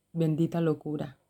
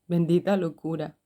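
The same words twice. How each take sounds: First: Laughing fondly. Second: Said in the usual way. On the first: Real, not acted. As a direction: chuckle it out, amused at herself. Laughing at her own "madness.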